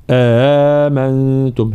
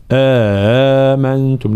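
First: Slow آمنتم, second hamza eased, no added alif; آمنتم بتسهيل بلا إدخال; correct آمنتم. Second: آمنتم with an alif wrongly put between the hamzas; the mistaken stretched آمنتم; آمنتم بإدخال ألف خطأ. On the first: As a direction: ease آمنتم without inserting an alif. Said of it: "لا". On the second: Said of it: "لا نقول". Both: Shown as a demonstration.

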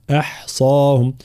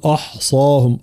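First: "أحصاهم" with a light hamza and a full open a; correct form. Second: "أحصاهم" with a mistaken vowel quality; wrong vowel. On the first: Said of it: "آه، لا". (نطق "أحصاهم" الصحيح) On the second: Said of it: "لا نقول". (نطق "أحصاهم" الخاطئ) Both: Shown as a demonstration.

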